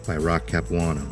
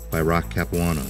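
The two takes are said the same way.

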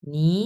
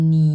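First: "নি" converted to a rising second tone; rising-tone "নি", as a teacher's demo. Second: "নি" held long, low and loud; third tone. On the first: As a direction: say "নি" with the pitch going up. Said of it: "এটা তখন হয়ে যাবে converted". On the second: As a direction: original third-tone "নি", kept down low. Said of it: "এটা কিন্তু তিন number tone". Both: Shown as a demonstration.

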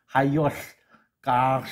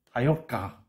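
First: 하이올가 stretched very slow and louder, every syllable held; teacher stretching 하이올가 slowly for the class; drawn-out Navajo pronunciation. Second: Said in the usual way. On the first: Shown as a demonstration. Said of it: "그 사람들 특유의 발음하는 방법입니다". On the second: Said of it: "L을 그냥 다 생략해버리면".

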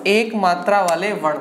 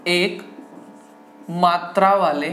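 First: Said in the usual way. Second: Broken up with long pauses; word-by-word dictation. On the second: Shown as a demonstration. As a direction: dictate slowly so students can write. Teacher dictates heading word by word.

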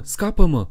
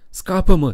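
First: High, loud repeated scream; desperate howl, pitch up and loud; terrified howl. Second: High, much louder scream for help; panicked cry, pitch leaping; terrified howl. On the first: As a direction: cry out again in panic. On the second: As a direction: shriek it in terror. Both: Acted. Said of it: "urlă el".

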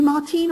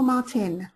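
First: Martine with a long "ee" in the second syllable; name said as Martine. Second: Martin with a short "i" in the second syllable; name said as Martin. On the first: Host checking an attendee's name, Martine said with long "ee". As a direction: stretch the end of Martine to "teen". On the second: Host checking an attendee's name, Martin said with short "i". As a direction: keep the end of Martin short, unlike "teen". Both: Shown as a demonstration. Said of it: "are you Martine or Martin".

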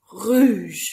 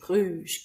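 First: "rouge" called out loudly with a falling end; game call. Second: Said in the usual way. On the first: Shown as a demonstration. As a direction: call "rouge" across the hall to stop the children. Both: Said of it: "So you might say".

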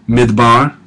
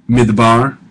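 No difference in how they are said.

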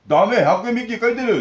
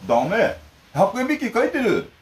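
First: Higher, louder, snapping 'ダメ' as the mother; mock scolding mother; mock mother's retort. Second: Higher and slow, 'ダメ' then drawn-out '百円引き書いてる'; exaggerated deliberate mom voice; slow mock mother. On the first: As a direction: shoot back 'ダメ、百円引き書いてる' like a mom catching him out. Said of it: "って言ってバレてました". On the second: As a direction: spell it out slowly as the mother. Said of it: "普通聞こえないのよ、私のが".

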